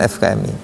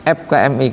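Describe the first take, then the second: First: Said in the usual way. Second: F K M I said as ep ka em i; Sundanese way. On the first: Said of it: "bukan F K M I". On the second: Retold or imitated. Teacher imitates Ciamis friend reading F as p. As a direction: Sundanese friend saying ep instead of ef. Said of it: "Dia mah bacanya F K M I".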